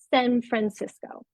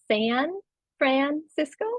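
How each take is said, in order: First: The vowel in San is raised toward 'e'. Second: The vowel in San is a plain, typical 'a'. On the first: "era una subida de la vocal" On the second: "prototípico diríamos San Francisco"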